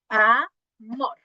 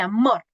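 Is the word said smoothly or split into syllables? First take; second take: split; smoothly. First: The word is split with a break between syllables. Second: The word is said smoothly without a break.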